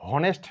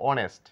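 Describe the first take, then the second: First: The word begins with an h sound. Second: The word begins with a vowel sound. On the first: The speaker calls it wrong. "হনেস্ট না বলে বলবো অনেস্ট" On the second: The speaker calls it right. "এইচ এর কোনো sound নেই"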